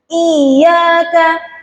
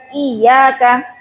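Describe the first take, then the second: First: The word is said with a strong stress emphasis. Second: The word is said flat, without stress emphasis. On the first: The speaker calls it right. "ada tekanan suara" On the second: The speaker calls it wrong. "lurus aja enggak"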